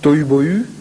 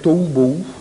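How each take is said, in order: First: The words end with a rounded front French 'u'. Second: The words end with a back 'oo' vowel. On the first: "alors on le prononce avec un U" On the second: "ça devrait être tohu bohu"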